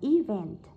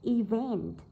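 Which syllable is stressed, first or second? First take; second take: first; second. First: The stress is on the first syllable. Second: The stress is on the second syllable. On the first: The speaker calls it wrong. "chứ không phải đọc là event" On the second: The speaker calls it right. "vậy trọng âm rơi vào âm thứ hai"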